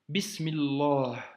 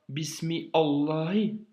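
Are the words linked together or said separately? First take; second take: linked; separate. First: The words are linked into one smooth unit. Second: The words are said separately without linking. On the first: The speaker calls it right. "tu dis" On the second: The speaker calls it wrong. "tu ne dis pas"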